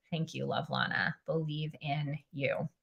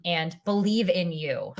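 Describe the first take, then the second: First: Whispered. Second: Said in the usual way. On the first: Real, not acted. Repeats chat words to herself.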